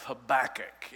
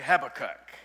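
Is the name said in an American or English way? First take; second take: American; English. First: The name is said the speaker's usual American way. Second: The name is said the way English people say it.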